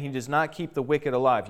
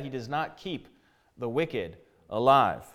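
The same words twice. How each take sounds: First: Said in the usual way. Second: "the wicked alive" slowed and set apart by a pause; deliberate emphasis. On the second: Shown as a demonstration. Preacher repeats the verse so it lands, pausing before "the wicked alive". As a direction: pause after "keep", then draw out "alive". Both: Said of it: "You hear that?".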